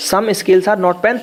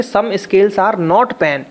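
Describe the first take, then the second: First: Slow dictation. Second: Said in the usual way. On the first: Shown as a demonstration. Teacher repeating the statement slowly for the class, slow dictation. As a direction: slowly spell out some scales are not pen, word by word. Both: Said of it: "इसको अगर वो कर देते".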